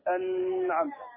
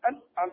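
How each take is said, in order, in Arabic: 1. يستمر صوت النون ويُمد. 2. يُقطع صوت النون فجأة. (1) "ولا نقول أنعمت، هذه رخاوة" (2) "ما نقول أنعمت أنعمت، هذه شدة"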